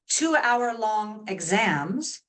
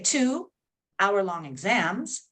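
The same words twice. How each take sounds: First: It flows with no pause after 'two'. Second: There is a short pause after 'two'. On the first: The exams each last two hours. "then I am talking about the length. The exams are two hours long" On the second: There are two exams, each one hour long. "if I put a pause in there and, and chunk it differently"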